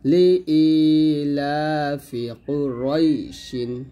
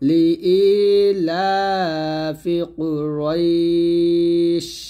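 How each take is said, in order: First: The last word ends with an added in sound. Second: The last word ends abruptly on the sh sound. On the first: The recitation continues without stopping. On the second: The reciter stops at this point.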